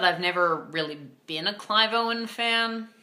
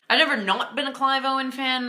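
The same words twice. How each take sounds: First: Said in the usual way. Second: Higher pitch with NOT punched; stress on NOT. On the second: Real, not acted. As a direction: lean hard on "not" to mark the contrast. Contrasts not with really been.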